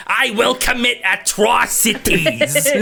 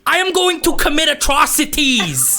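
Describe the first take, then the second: First: High, slow, strained voice; near Gilbert Gottfried. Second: High, deadpan threat; Bill Burr rant. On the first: Game master nearly slipping into a Gottfried voice. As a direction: squeeze it out like Gottfried. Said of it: "close to slipping into Gilbert Gottfried". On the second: Goblin vowing atrocities after losing, ranting. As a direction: promise atrocities, dead serious. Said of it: "are you channeling Bill Burr". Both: Acted.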